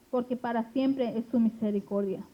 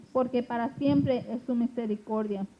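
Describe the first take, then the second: No difference in how they are said.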